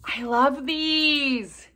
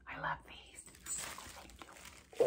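First: Slow, drawn-out, higher gush; raised, lingering delight. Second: Soft, voiceless whisper; hushed, barely audible thanks; grateful whisper. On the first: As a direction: stretch it out with real delight. Delighted by water drops. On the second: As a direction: whisper it with real gratitude. Moved thanks for the gift. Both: Real, not acted.

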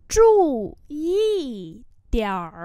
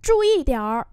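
First: Syllables held apart; slow model reading. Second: Said in the usual way. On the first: Shown as a demonstration. Teacher modelling "pay attention" for learners, slowly and separately.

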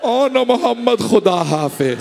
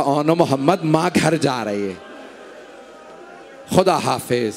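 First: Sorrowful farewell, eyes closed. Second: A mother's faint parting whisper-like farewell; soft voice. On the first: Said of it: "आंखें बंद करके कहा". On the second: Mother bidding her dead sons goodbye, softly. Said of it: "एक धीमे आवाज में कहा". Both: Acted.

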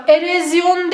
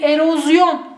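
First: Erozyon said erezyon; the wrong erezyon; yanlış telaffuz. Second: Erozyon with a clear o; doğru telaffuz. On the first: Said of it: "Erozyon değil". (yanlış söyleyiş: erezyon) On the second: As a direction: say erozyon, ro not re. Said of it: "Doğrusu erozyon". (doğru söyleyiş: erozyon) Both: Shown as a demonstration.

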